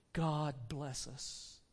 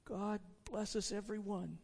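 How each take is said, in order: First: Slow, low, soft blessing; father's toast. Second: Lightly voiced small child. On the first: Acted. Bob blesses his family at dinner, gentle toast. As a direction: give a quiet, measured family toast. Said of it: "Then Bob proposed". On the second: Tiny Tim echoes his father's toast, soft child voice. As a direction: bless them softly like a little boy. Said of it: "said Tiny Tim".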